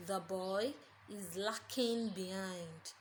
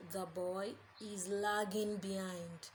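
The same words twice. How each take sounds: First: "lacking" said with a hard k, slowly; wrong version: "lacking" spelt L A C K I N G; lacking with a k sound. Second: "lagging" said with a clear g, slowly; lagging with a g sound. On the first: Teacher showing the class the mistaken "lacking". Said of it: "you hear a sentence like". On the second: Teacher giving students the right word, "lagging" with clear g. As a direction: correct version: "lagging" with a soft g. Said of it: "what you should say as a matter of fact is". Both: Shown as a demonstration.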